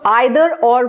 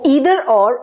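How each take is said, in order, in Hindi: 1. 'Either' की शुरुआत 'eye' ध्वनि से होती है। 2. 'Either' की शुरुआत 'ee' ध्वनि से होती है। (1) "कुछ लोग आइदर और बोलते हैं जो कि गलत प्रोनाउंसिएशन है" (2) "उसको ईदर और और नीदर नॉर बोला जाता है"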